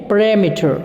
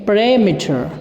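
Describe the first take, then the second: No difference in how they are said.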